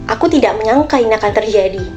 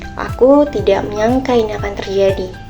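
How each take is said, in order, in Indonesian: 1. Kalimat ini diucapkan dengan nada kaget. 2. Kalimat ini diucapkan dengan nada sedih. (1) "dengan nada yang kaget" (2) "dengan nada yang sedih"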